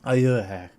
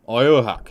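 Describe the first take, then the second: First: The name is said in a French accent. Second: The name is said in a plain English accent.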